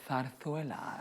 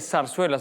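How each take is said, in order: First: It is said with a Spain Spanish accent. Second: It is said with a Latin American accent. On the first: "the Spanish say" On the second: "We would say"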